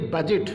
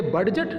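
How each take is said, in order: First: Budget with silent D; correct reading. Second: Budget with the D sounded; wrong reading. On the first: Teacher giving students the right reading, "बजट" with D silent. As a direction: say "बजट" with no d before the j. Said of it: "इसे पढ़ेंगे बजट". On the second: Teacher showing students the wrong reading of "बडजट", D sounded. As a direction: say "बडजट" with a hard d before the j. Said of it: "इसे हम क्या पढ़ेंगे". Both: Shown as a demonstration.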